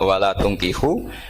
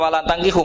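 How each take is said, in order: First: The verb's first vowel is a rounded 'u'. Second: The verb's first vowel is an open 'a'. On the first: Do not give your daughters in marriage to them. The speaker calls it right. "harus dibaca bidomit" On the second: Do not marry them yourselves. The speaker calls it wrong. "sekali dibaca wala tangkihu maka kualitas maknanya itu terjadi"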